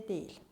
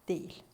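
No difference in how they are said.

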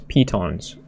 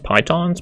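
First: The first syllable sounds like 'pee'. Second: The first syllable does not sound like 'pee'. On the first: The speaker calls it right. "Like a P-E-E, P, as though you're peeing, and tons" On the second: The speaker calls it wrong. "I've been pronouncing it as pitons"

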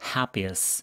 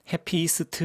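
First: The ending is weak and reduced. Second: The ending is pronounced fully and clearly. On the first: The speaker calls it right. "해에 강세가 있기 때문에 happiest. 뒤쪽은 그냥 강세가 없기 때문에 쓱 무너지는 겁니다" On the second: The speaker calls it wrong. "Happiest 이러지 마시고요"

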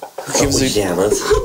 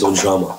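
First: The name ends with an added s sound. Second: The name ends without an s sound. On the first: The speaker calls it wrong. "Why do you say it like that?" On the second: The speaker calls it right. "It's Ujama"

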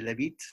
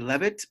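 First: The name is said the French way. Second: The name is said the speaker's own way.

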